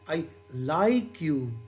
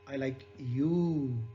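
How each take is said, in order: First: The stress is on "like". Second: The stress is on "you".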